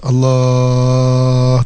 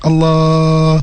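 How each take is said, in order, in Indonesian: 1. Diucapkan pada tingkat nada kedua. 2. Diucapkan pada tingkat nada keempat. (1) "Tahap kedua" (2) "Tahap keempat"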